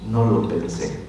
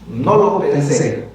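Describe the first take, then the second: First: It is said as a statement, falling. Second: It is said as a question, rising.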